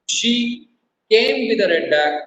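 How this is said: The stress is on "came".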